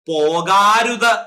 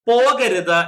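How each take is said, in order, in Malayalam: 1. രണ്ടാമത്തെ സ്വരം ദീർഘമാണ്. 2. രണ്ടാമത്തെ സ്വരം ഹ്രസ്വമാണ്. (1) "പോകാരുത് എന്നല്ല നമ്മൾ പറയുന്നത്" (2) "പോകരുത് എന്നാ പറയുന്നത്"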